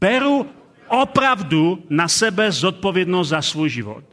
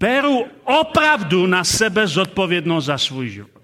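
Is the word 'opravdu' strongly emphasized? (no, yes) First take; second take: no; yes. First: The word opravdu gets no special emphasis. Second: The word opravdu is strongly emphasized.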